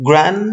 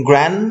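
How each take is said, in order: Both takes have the same delivery.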